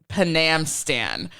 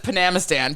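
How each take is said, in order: First: No vowel is said before 'stan'. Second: An extra vowel is said before 'stan'. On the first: The speaker calls it right. "to say that Panamstan" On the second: The speaker calls it wrong. "everybody just says Panamistan"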